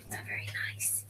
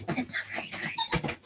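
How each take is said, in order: First: Whisper. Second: High pet voice. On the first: Whispered scolding aside. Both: Real, not acted.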